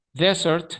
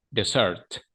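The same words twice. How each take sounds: First: "Desert" as DE-sert, first e raised high; first-syllable stress. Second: "dessert" as de-SERT, stress on second e; second-syllable stress. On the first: Teacher contrasting two words, "Desert" stressed on first syllable. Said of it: "el acento va como en la primera E". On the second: Teacher contrasting two words, "dessert" stressed on second syllable. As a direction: lean on the last syllable of "dessert". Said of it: "va en la segunda E". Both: Shown as a demonstration.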